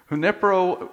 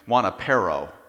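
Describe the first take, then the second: First: The name begins with a 'hoo' sound. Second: The name begins with a 'wah' sound.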